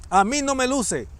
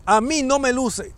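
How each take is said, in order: Both takes have the same delivery.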